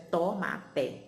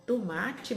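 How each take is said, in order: First: "tomate" as "tô-má-té", each syllable as written; spelling pronunciation. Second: "tomate" as "tumátchi", the everyday way; spoken pronunciation. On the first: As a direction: say "tomate" with full o and hard final "té". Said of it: "mas a gente escreve". ("tomate" como se escreve, "tô-má-té") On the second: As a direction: say "tomate" with a reduced first vowel and "tchi" ending. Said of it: "que a gente fala". ("tomate" como se fala, "tumátchi") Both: Shown as a demonstration.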